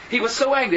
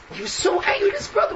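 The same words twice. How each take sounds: First: Said in the usual way. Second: Outraged cry, pitched up high; angry shout. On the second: Shown as a demonstration. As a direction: yell it as the brother's rage.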